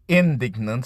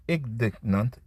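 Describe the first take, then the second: First: Indignant, said clearly and a bit louder; confident retry of indignant; corrected word. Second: Indignant, tentative rising stumble; stumbled try. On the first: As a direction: land indignant firmly on the second try. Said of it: "be ig". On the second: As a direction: feel out indignant unsure, rising at the end. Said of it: "ig-, indignant". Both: Real, not acted.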